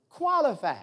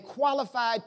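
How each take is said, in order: First: "Qualified" set apart as a word on its own, stressed; emphasis on Qualified. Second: Said in the usual way. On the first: Shown as a demonstration. Preacher underlining a word for the congregation, "Qualified" emphasized. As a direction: lean deliberately on "Qualified". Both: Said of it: "let me put some emphasis on that then".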